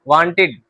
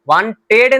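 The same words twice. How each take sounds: First: The ending is pronounced with an 'id' vowel. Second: The ending is pronounced with an 'ed' vowel. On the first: The speaker calls it right. "इड" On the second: The speaker calls it wrong. "वांटेड नहीं, एड नहीं"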